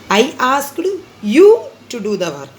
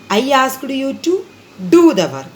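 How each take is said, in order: First: The stress is on you. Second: The stress is on the work.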